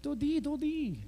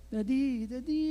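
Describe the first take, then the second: First: High, mock British child's call; hammed-up British vowels on a high-pitched call; British accent. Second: Put-on higher-pitched little-girl call, rising on the repeat; child's coaxing call to Daddy; daughter calling Dad. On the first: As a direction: playfully imitate a little girl's British accent. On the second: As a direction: lightly imitate a child trying to wake Dad. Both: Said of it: "British accent".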